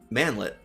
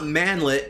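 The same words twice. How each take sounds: First: The word is said with a plain English ending. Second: The word is said with a French-sounding ending. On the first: It is built like the word piglet. The speaker calls it right. "as in manlet" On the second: It sounds like a girl's name. The speaker calls it wrong. "as in some weird French girl's name"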